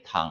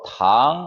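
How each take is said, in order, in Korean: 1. 음높이가 높고 평평하게 유지됩니다. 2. 음높이가 중간에서 높게 올라갑니다. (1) "일성으로 탕이라고 하면은" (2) "이성으로 탕 하게 되면"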